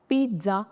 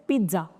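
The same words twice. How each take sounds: The two takes are said the same way.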